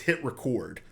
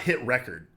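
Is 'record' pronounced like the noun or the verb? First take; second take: verb; noun. First: Record is pronounced like the verb. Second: Record is pronounced like the noun. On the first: The speaker calls it right. "like record a video" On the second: The speaker calls it wrong. "It's not hit record"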